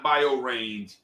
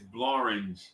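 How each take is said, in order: First: The word starts with 'bio', two separate syllables. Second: The word starts with 'blo', blended into one syllable. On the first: The speaker calls it wrong. "It's not bio range" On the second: The speaker calls it right. "It's Blorange"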